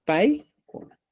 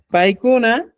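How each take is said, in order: First: "Paikuna" in southern Quechua, U nearer O; southern pronunciation. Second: "Paikuna" as said in Cusco, with a U; Cusco pronunciation. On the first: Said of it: "En sureño". ("Paikuna" con pronunciación sureña, casi "paikona") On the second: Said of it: "en Cusco". ("Paikuna" con pronunciación cusqueña, con U) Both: Shown as a demonstration.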